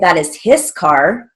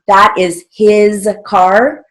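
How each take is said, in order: First: The word his ends with a hissing s sound. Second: The word his ends with a buzzing z sound. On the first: The speaker calls it wrong. "We don't say" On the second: The speaker calls it right. "So his is H I Z"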